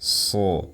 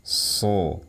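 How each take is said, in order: First: The sound is made with audible breath. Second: The sound is made with audible breath.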